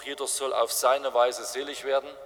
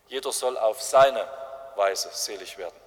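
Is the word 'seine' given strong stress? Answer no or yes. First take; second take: no; yes. First: The word seine carries no special stress. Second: The word seine carries strong stress. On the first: Everyone may find salvation in their own way. "diesen Spruch" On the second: Everyone should find salvation in Jesus's way. "wenn wir diesen Satz richtig betonen"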